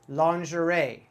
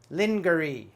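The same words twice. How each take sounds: First: It is pronounced the usual American way. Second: It is pronounced as the spelling suggests. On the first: The speaker calls it right. "We pronounce this word in America" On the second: The speaker calls it wrong. "my first time I see this word, I might try to say lingerie ... totally wrong"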